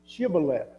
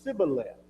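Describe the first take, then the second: First: The word begins with a 'sh' sound. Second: The word begins with an 's' sound. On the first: The speaker is from Gilead. The speaker calls it right. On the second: The speaker is from Ephraim. The speaker calls it wrong.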